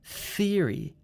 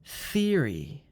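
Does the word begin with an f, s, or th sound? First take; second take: th; th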